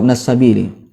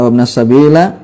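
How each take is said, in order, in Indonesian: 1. Kata terakhir berakhir dengan vokal 'i'. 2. Kata terakhir berakhir dengan vokal 'a'. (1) "yang betul adalah" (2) "itu keliru"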